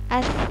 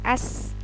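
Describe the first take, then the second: First: The consonant is a soft lisped th-like sound. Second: The consonant is an ordinary hissing s sound. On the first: The speaker calls it right. "sa di ujung lidah" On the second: The speaker calls it wrong. "bukan s biasa"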